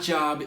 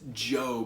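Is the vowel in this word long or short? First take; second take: short; long. First: The vowel is short, like the word for work. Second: The vowel is long, like in the word 'robe'. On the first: It names a paid position of work. The speaker calls it wrong. "It's not Job" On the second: It names a man from the Old Testament. The speaker calls it right. "it's Job. It's the dude from the Old Testament"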